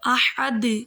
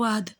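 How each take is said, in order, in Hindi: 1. अंतिम d एक साफ़ गूंजती उछाल के साथ खत्म होता है। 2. अंतिम d बिना किसी उछाल के सपाट खत्म होता है। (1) "यहाँ पर कलकला है, इसको अच्छे तरीके से अदा करना है" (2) "लोग ऐसे पढ़ देते हैं ... पता ही नहीं चलता"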